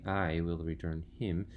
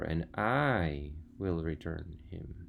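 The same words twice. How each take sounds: First: Said in the usual way. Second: Slow, stressed "I", the rest said evenly. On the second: Shown as a demonstration. Teacher showing students how to stress "I". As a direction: lean on the word "I" in "and I will return him". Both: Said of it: "you can say that I louder".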